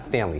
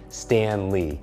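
First: The name is run together as one word. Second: The name is said as two separate words. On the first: The speaker calls it wrong. "not Stanley" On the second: The speaker calls it right. "Stan Lee, not Stanley, Stan Lee"

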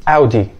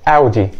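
The two takes are said the same way.

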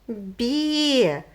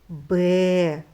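First: The b sound is soft, palatalized. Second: The b sound is hard, not palatalized. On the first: A little lamb is answering. "Він промовляє звук «б» м'яко" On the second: A mother sheep is calling. "Звук «б» вона промовляє твердо"

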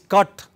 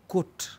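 First: The word is said in a London accent. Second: The word is said in a Manchester accent. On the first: "is cut in London" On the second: "in Manchester it is cut"

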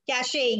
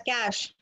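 First: The word has two syllables, ending in 'ay'. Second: The word has one syllable, sounding like 'cash'. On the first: The speaker calls it wrong. "How many of you pronounce it as cachet?" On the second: The speaker calls it right. "this is pronounced as cash"

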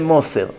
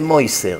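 First: It is said in a Sephardi Hebrew accent. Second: It is said in an Ashkenazi Hebrew accent. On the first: "The Sfaradim say Moser"

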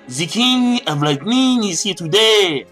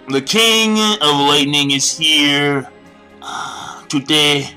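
First: It is said in a French accent. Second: It is said in a plain accent. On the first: "end it off with a French accent" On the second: "I like how I started off English"

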